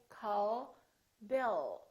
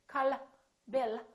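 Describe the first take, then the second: First: The L at the end of call is unreleased. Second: The L at the end of call is released. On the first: The speaker calls it right. "We say" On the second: The speaker calls it wrong. "We don't say"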